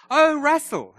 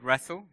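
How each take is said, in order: First: "Oh, Russell" pitched higher, with a long falling "oh", as the hairdresser finally gets it; imitating hairdresser. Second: Put-on "Russell" said plainly, with a small rising tune, in his own accent. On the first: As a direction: mimic the hairdresser's "Oh, Russell" as it dawns on her. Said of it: "She goes". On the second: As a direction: say "Russell" just as he always does. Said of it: "it's a strange accent".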